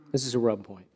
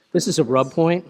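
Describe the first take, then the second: First: Said in the usual way. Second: "This is a rub point" higher and louder, punching "This"; emphatic. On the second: Shown as a demonstration. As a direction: announce "This" firmly.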